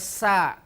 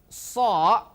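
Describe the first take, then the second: First: The syllable is thin with an open vowel. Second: The syllable is heavy with a rounded vowel. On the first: The speaker calls it wrong. "tidak boleh ... berubah huruf menjadi sin" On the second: The speaker calls it right. "Begitu juga so"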